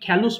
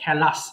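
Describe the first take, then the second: First: The second syllable has an 'oo' vowel. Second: The second syllable has a short 'a' vowel. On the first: The speaker calls it wrong. "অনেকে খেলুস বলে ফেলে" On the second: The speaker calls it right. "কি হবে এটা? খেলাস।"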